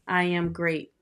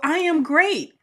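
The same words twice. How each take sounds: First: It is said flatly, without conviction. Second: It is said with energy and conviction.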